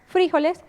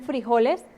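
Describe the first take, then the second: First: The stress falls on the first syllable. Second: The stress falls on the second syllable. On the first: This is how it is said in Colombia. "nosotros aquí en, en Colombia decimos frijoles ... y lo acentuamos" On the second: This is how it is said in Mexico. "en México ellos, por ejemplo, dicen frijoles y no lo acentúan"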